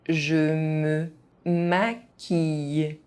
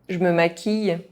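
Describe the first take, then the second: First: It is said at an ordinary speaking pace. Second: It is said fast, with some sounds dropped. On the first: This is the pace learners should use. "at a normal pace" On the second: This is how native speakers say it. "fast, as a native speaker would do"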